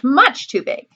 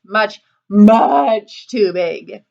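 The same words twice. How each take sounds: First: Said in the usual way. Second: MUCH stretched out very slowly before "too big"; drawn-out MUCH. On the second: A narrator's reading. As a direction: drag out MUCH for the biggest size. Biggest chair, escalating repetition.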